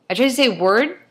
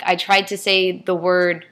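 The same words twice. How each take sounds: First: Word said carefully, pitched higher, rising at the end; a self-conscious attempt at word with a lift on the end; trying to say word. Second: Said in the usual way. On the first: Shown as a demonstration. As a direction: reach for a careful, different sound on word. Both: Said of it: "and it came out".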